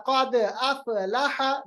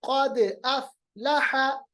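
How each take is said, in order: First: अफ़लह wrongly bounced as "afe-laha"; wrong qalqalah. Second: Slow क़द अफ़लह, only the d bouncing; stopped fa. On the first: Teacher shows the mistake, अफ़लह with bounced f. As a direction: echo both the d of क़द and f of अफ़लह. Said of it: "मैंने ऐसे नहीं पढ़ा". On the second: Teacher shows the correction, अफ़लह with f held still. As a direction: echo क़द, stop the f of अफ़लह cleanly. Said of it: "फा की आवाज को हम रोकेंगे". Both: Shown as a demonstration.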